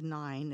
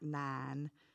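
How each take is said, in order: First: It is said with a Maryland accent. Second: It is said with a Southern West Virginia accent.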